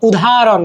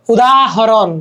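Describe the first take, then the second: First: Said in the usual way. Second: উদাহরণ with the হ sounded separately; full pronunciation. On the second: Shown as a demonstration. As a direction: say উ-দা-হ-রণ, every syllable clear. (উদাহরণ, হ স্পষ্ট করে উচ্চারণ) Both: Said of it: "ধ্বনির মতো উচ্চারিত".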